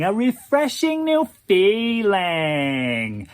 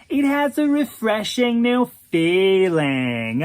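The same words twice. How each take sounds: First: Very slow echo, even more drawn out; slower airy drawl. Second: Slow drawl, lifted pitch; airy drawl. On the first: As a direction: repeat it savoring every word. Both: Acted. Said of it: "in that airy drawl of his".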